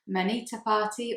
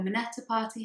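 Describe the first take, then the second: First: "Manita" said with a long ee in the middle. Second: "Minetta" said with a short e in the middle. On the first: Vlogger offering viewers either name for the hashtag, "Manita" with ee. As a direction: say "Manita" as muh-NEE-tuh. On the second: Vlogger offering viewers either name for the hashtag, "Minetta" with short e. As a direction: say "Minetta" as mih-NET-uh. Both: Shown as a demonstration. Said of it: "however you prefer to say it".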